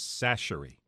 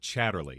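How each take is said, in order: First: The name begins with an s sound. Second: The name begins with a ch sound. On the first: The speaker calls it right. "let me pronounce it for everyone when you see it in the store. It's Sacherly" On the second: The speaker calls it wrong. "not Chatterly"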